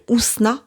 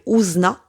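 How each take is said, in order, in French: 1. Le prénom se prononce à la française. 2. Le prénom se prononce à la néerlandaise. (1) "en français, on m'appelle Ousna" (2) "des personnes néerlandophones, du fait de leur langue, heu, et de leur phonétique, m'appellent Ouzna"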